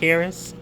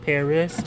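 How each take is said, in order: Both takes have the same delivery.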